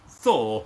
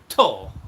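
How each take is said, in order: First: The name begins with a th sound. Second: The name begins with a plain t sound.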